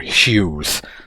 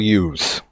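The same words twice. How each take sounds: First: The name starts with a clear H sound. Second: The name starts without an H sound. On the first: This is the standard way to say it. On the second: This is how people from the speaker's region say it.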